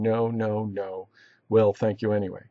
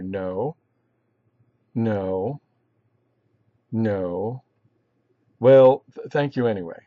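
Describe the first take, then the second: First: It is read smoothly without long pauses. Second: It is read with long pauses between phrases.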